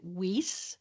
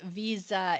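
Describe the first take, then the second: First: The name is said in the Canadian way. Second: The name is said in the original way. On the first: This is how it is said locally in Canada. "in Canada, we pronounce it Weiss" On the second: This is the name's proper original pronunciation. "Visa is the correct pronunciation of it"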